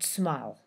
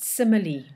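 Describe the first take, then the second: First: The word is said with one syllable. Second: The word is said with three syllables. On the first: The speaker calls it wrong. "not smile" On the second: The speaker calls it right. "we pronounce it simile"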